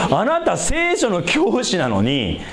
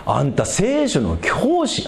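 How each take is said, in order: First: Said in the usual way. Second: Slow Osaka-tinged 'anta' quote; Osaka-flavoured rebuke to a Bible teacher; Osaka dialect. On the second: Retold or imitated. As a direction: slip into Kansai dialect for Jesus's rebuke. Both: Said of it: "大阪弁っぽくなったけど".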